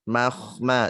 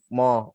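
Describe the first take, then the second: First: The vowel after m is light and thin. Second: The vowel after m is heavy and thick. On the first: The speaker calls it right. "ini kan ada mahma" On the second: The speaker calls it wrong. "jangan moh"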